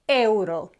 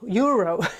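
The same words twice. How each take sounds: First: The word begins with a short pure e vowel. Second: The word begins with a different, non-Spanish vowel sound. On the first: The speaker calls it right. "just euro. E is E" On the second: The speaker calls it wrong. "Don't be tempted to say euro"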